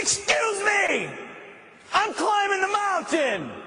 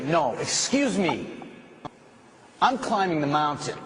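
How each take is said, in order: First: Shouted declaration. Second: Said in the usual way. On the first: Shown as a demonstration. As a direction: proclaim it with full force. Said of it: "and you say". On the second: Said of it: "you'll have to say".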